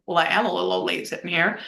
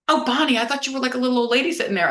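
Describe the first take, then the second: First: Said in the usual way. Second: A retold friend's surprise, said higher; half-mock surprised greeting, pitched up. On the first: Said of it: "I'm like". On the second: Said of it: "And she goes".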